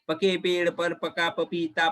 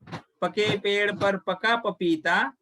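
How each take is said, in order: First: It is said fast. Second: It is said slowly.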